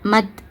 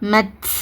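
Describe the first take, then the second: First: The final t has a light puff of air. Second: The final t has a heavy burst of air. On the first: The speaker calls it right. "இந்த மாதிரி உச்சரிங்க" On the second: The speaker calls it wrong. "இந்த மாதிரி ஹெவியாக அந்த காற்றை வெளிப்படுத்தாதீங்க, அது தப்பு"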